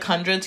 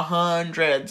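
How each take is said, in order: First: Said in the usual way. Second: HUNDREDS drawn out low, as if to an idiot; condescending. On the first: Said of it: "but he said, like". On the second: Retold or imitated. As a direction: imitate talking down on "Hundreds". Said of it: "I was stupid".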